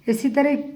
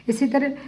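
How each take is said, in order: No difference in how they are said.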